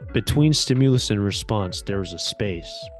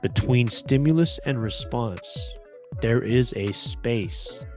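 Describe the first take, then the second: First: It is spoken at a quicker, normal pace. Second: It is spoken at a slower, deliberate pace.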